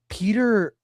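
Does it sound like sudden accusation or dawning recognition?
accusation. It sounds like a sudden, accusing realization. The speaker has just discovered a secret identity. The speaker calls it wrong. "it's not like"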